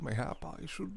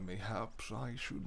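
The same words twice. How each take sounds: First: Mayhap with no final s, self-corrected. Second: Mayhaps with a final s, said slowly; first try: mayhaps, with the s. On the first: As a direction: fix it to mayhap, dropping the s. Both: Real, not acted.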